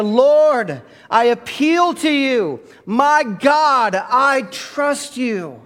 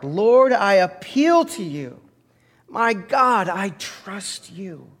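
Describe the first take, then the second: First: High, loud, slow full-force prayer; praying like you mean it. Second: Heartfelt prayer. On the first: Pastor urging the church to mean it, praying loud and slow. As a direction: pour everything into the plea. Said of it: "Say it like you mean it". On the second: Pastor repeating the prayer with the church, fading at the end. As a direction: pray it from the heart and let the last words fall away. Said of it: "one more time with all your heart". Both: Shown as a demonstration.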